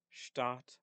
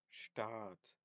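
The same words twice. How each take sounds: First: Stadt with a short, quick a; short vowel. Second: Staat with a long, held aa; long vowel. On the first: Teacher contrasting German vowel length, short Stadt. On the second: Teacher contrasting German vowel length, long Staat. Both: Shown as a demonstration. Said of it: "I'm going to try to record myself, uh, making a distinction".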